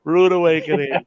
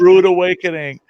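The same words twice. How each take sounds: First: Said in the usual way. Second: Laughing exclamation. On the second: Real, not acted.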